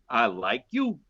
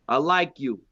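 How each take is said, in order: First: It is said in a suggestive, meaningful tone. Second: It is said in a plain, neutral tone.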